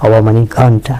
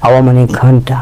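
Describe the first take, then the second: No difference in how they are said.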